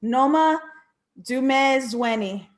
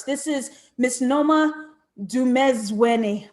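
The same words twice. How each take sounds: First: Fix the name and land "Dumezweni" slowly; a corrected second try at "Noma Dumezweni"; careful correction. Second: "Dumezweni" said as "too-mez-WEH-nee", Americanized; a first, wrong try at the name "Dumezweni"; mispronounced name. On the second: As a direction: rush "Noma Dumezweni" the way an American would guess it. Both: Shown as a demonstration. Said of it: "I know I said that wrong".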